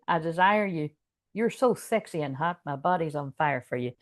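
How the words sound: It is said playfully in a put-on American accent. The speaker is embarrassed by the words. "I can't seem to say that in a serious voice. It always comes out with American"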